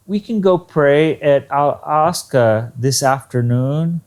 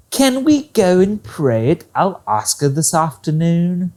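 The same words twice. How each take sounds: First: Statement word order asked with little lift; flat question tune. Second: "Can we" pitched high at the start, then settling; correct question intonation. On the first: Teacher shows students a faulty question, flatly intoned. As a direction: ask it like a plain statement, barely lifted at the end. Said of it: "possibly the intonation was not correct". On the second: Teacher models the correct question, opening pitched high. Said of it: "if you say it like that". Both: Shown as a demonstration.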